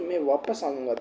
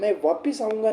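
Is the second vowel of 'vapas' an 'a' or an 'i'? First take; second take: a; i. First: The second syllable has an 'a' vowel. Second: The second syllable has an 'i' vowel. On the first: The speaker calls it right. "मैं वापस आऊंगा, ध्यान रख लेना" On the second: The speaker calls it wrong. "मैं वापिस आऊंगा नहीं"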